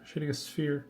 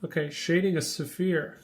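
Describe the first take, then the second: First: Said in the usual way. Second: "sphere" said as two syllables, suh-fear, like a name; "shading a sphere" with "sphere" stretched into suh-feer, as a name. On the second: Shown as a demonstration. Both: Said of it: "I said that like a name".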